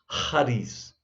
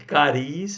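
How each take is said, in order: First: The first sound is harsh and strongly aspirated. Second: The first sound is a plain, unaspirated consonant. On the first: The speaker calls it right. "Essa pronúncia bem áspera, bem aspirada" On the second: The speaker calls it wrong. "nem cariz"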